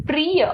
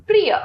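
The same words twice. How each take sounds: First: Long ई in प्रिय; mispronounced प्रिय. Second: Short इ in प्रिय; correct प्रिय. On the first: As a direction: stretch प्रिय to "pree-ya". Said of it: "अशुद्ध". (प्रिय का अशुद्ध उच्चारण, "प्रीय") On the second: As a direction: keep प्रिय brief, "pri-ya". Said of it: "इसका शुद्ध है". (प्रिय का शुद्ध उच्चारण, छोटी इ से) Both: Shown as a demonstration.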